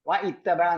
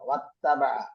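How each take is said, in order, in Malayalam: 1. ഒരു ഗ്ലോട്ടൽ സ്റ്റോപ്പ് wa-യെ ക്രിയയിൽ നിന്ന് വേർതിരിക്കുന്നു. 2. Wa ഒരു സ്റ്റോപ്പും ഇല്ലാതെ നേരിട്ട് ക്രിയയിലേക്ക് ചേരുന്നു. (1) "വ ഇത്തബഅ എന്നല്ല പറയുക" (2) "ചേർത്ത് വായിക്കുമ്പോ വത്തബഅയാണ് പറയുക"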